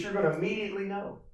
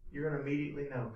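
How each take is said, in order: First: Said in the usual way. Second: "You're gonna immediately know" said softer and quick; hushed repeat. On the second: Shown as a demonstration. Preacher repeating a point to the congregation, hushed and quick. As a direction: drop the voice and rush the repeat.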